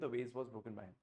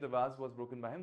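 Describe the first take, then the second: First: The vowel in vase sounds like 'ay'. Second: The vowel in vase sounds like 'ah'.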